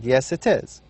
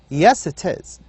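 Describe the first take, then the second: First: It is said in a plain, calm tone. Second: It is said in an insistent, contradicting tone. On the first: It simply confirms the pen is theirs. "You might answer saying" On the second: It contradicts the claim that the pen is not theirs. "You change your tone mm-hmm, in order to convey a different meaning"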